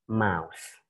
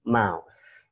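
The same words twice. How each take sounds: First: Teacher's first demo of "mouse"; model pronunciation. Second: "mouse" repeated as /maʊs/, a bit firmer; teacher repeats "mouse" with a firm falling end; model pronunciation. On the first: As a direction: model "mouse" gently with a falling end. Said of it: "you should read it". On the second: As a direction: repeat "mouse" clearly for the class. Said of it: "One more time, sekali lagi". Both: Shown as a demonstration.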